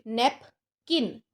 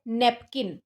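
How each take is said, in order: First: napkin broken in two, नैप, long pause, किन; napkin as two separate beats, नैप ... किन; split into syllables. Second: Said in the usual way. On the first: Shown as a demonstration. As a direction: say napkin very slowly with a clear gap after नैप. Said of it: "दो शब्दों में तोड़ना पड़ रहा है". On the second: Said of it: "आप इसको pronounce करते हो".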